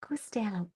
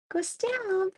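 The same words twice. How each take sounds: First: Quietly repeats "Go stand." as the son said it; quoted son. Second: "Go stand." pitched much higher, stress on stand, falling; mock son. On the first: Retold or imitated. Son sending mom off, said softly and flatly. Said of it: "he's like". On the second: Retelling the son's order, in a mock high voice. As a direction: hams up "Go stand." high and sing-song. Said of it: "That was his response to me, literally".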